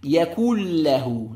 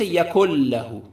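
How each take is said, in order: First: The n sound merges fully into the l. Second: The n sound is heard before the l. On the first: The speaker calls it right. "إدغام كامل without غنة" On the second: The speaker calls it wrong. "don't say يكن له, that's a common mistake"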